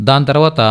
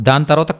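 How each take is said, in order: No difference in how they are said.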